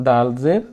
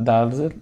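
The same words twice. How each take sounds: Both takes have the same delivery.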